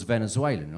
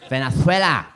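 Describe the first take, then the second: First: Said in the usual way. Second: Loud, hammed-up Spanish accent on Venezuela; exaggerated Spanish accent. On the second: Comedian mocks half-Venezuelan flatmate, loud Spanish-accented Venezuela. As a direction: punch out Venezuela with a lisped th for the z. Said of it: "That's how he'd say it".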